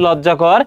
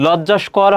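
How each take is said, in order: First: লজ্জাকর with no s before কর; correct form shown. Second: লজ্জাস্কর with an s before কর; wrong form shown. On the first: Teacher giving the correct answer, লজ্জাকর without any s. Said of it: "সেটা কি হবে?". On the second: Teacher citing the mistaken form, লজ্জাস্কর with an added s. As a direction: put the extra s into লজ্জাস্কর. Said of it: "লজ্জাস্কর হয় না". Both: Shown as a demonstration.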